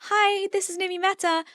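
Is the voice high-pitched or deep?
high-pitched. The voice is high-pitched and thin.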